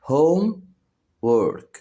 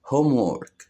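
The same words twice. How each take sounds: First: "homework" as a drawn-out high home, pause, work; split into syllables. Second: Said in the usual way. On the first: Shown as a demonstration. Teacher showing children two syllables, "homework" split in two. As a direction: say "homework" slowly in two beats. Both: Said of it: "فيها مقطعين صوتيين".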